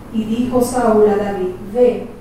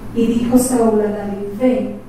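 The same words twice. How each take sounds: No difference in how they are said.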